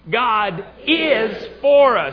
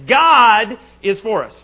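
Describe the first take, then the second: First: The stress falls on the word 'is'. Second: The stress falls on the word 'God'. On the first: "This time is" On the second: "First time we're going to emphasize God"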